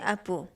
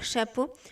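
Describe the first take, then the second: First: The word starts without its first consonant sound. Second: The word starts with its first consonant sound. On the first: The speaker calls it wrong. "je disais apo. Je supprimais des consonnes" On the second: The speaker calls it right. "Au lieu de dire"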